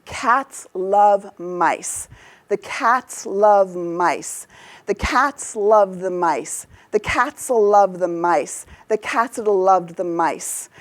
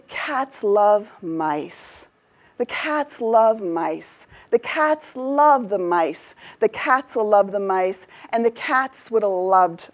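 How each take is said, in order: First: Slow emphatic beats on "cats", "love", "mice"; serious, emphatic beats. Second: Smooth, drawn-out stresses on "cats", "love", "mice"; mellifluous. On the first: Teacher demonstrating English timing to make a point, serious emphatic beats. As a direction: punch out "cats", "love", "mice" slowly and seriously to a steady beat. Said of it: "I sounded very serious in that rendition". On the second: Teacher wants you to love these sentences, mellifluous and smooth. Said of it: "I'm gonna say them mellifluously". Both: Shown as a demonstration.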